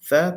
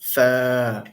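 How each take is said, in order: First: The vowel is short. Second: The vowel is long.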